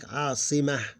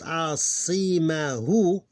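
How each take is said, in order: First: The word ends without the final vowel. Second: The word ends with a short final vowel. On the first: "we lose the vowel only here, and it will pronounce like asimah" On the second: "this one here is the word is pronounced asimahu"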